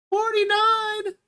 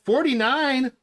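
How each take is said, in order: First: "Forty-nine" much higher, drawn out slowly; excited repeat. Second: Said in the usual way. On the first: Real, not acted. Streamer thrilled at the like count, high and drawn out. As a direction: sing out "Forty-nine" in delight.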